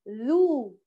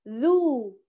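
No difference in how they are said.

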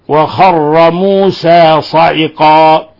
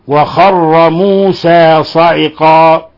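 Both takes have the same delivery.

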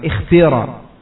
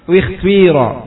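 First: The first vowel is a pure i sound. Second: The first vowel blends a rounded u with i. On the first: "kalau antum kasrah dengan kasrah yang khalisah maka ikhtira" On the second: "atau ismam berarti dua-duanya di ismam. Gimana cara bacanya?"

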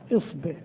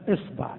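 First: The b is followed by an i vowel. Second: The b is followed by an a vowel. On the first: "والكسر" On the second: "الفتح"

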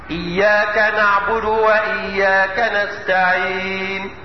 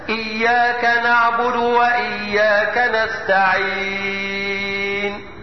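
First: The last word's long vowel is held briefly. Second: The last word's long vowel is held very long. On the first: "اقصر الحرف بمقدار حركتين هكذا" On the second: "وطوله ... ست حركات"

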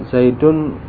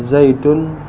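Both takes have the same delivery.

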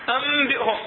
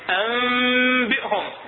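First: The m is said with lips firmly closed. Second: The m is hidden, lips loose, with nasal hum. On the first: The speaker calls it wrong. "ما نقول أنبئهم، غلط" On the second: The speaker calls it right. "ما راح نطبق الشفتين"

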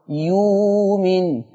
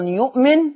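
First: A long oo vowel replaces the glottal stop. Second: A glottal stop is heard in the middle.

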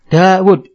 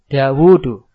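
First: The vowel after the w is short. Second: The vowel after the w is long. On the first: The speaker calls it wrong. "Kalau bacanya Dawud salah" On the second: The speaker calls it right. "Wawunya dibaca panjang"

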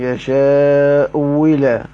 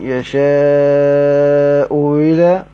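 First: The hamza is replaced by a clear w sound. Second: The hamza is softened, halfway toward a vowel glide. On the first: "والواو المحضة على مذهب بعضهم" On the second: "وبين على مذهب العراقيين"

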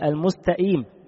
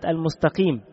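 First: The q sound is replaced by a glottal stop. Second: The word is said with its normal consonants. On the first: The speaker calls it wrong. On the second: The speaker calls it right.

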